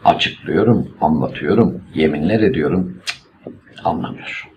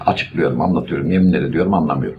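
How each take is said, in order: First: A long pause comes before the last word. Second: Only a short pause comes before the last word. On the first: The last clause shifts the tone of the sentence. The speaker calls it right. "okurken mutlaka noktalı virgül biçiminde okuyoruz" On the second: The last clause is just one more item in the list. The speaker calls it wrong. "yeminler ediyorumdan sonra virgül olduğunu düşün. Ne kadar rahatsız edici"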